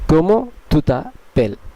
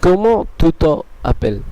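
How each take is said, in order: First: The words te and appelles are joined together. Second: The words te and appelles are kept separate. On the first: The speaker calls it right. "এর উচ্চারণটি ... হয়ে যাবে" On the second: The speaker calls it wrong. "কিন্তু এটি ভুল"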